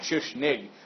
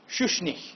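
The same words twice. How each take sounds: First: The name ends in a hard G sound. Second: The name ends in a breathy, H-like sound. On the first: The speaker calls it wrong. "not Schuschnigg" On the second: The speaker calls it right. "has a sound like kind of like a H"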